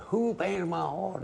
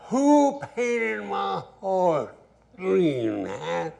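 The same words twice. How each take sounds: First: High, drawn-out holler across the dance hall. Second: Much higher, louder, very slow shout; furious holler. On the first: Angry dancer hollers over band, high holler. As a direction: call out over the band, pitched way up. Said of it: "and he hollered". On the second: Angry owner demands who painted horse, loud high bellow. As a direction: bellow it so the whole hall stops. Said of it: "And he hollered". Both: Retold or imitated.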